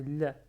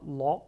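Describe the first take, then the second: First: La with the Arabic open a, the right way; teacher gives the correct Arabic La after the French error. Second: La said like French la, the wrong way; teacher shows La as French speakers say it to an Arabic learner, plain. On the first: En français : La prononcé correctement à l'arabe. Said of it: "c'est La". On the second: En français : La prononcé à la française, à éviter. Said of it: "Il n'y a pas La en arabe". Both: Shown as a demonstration.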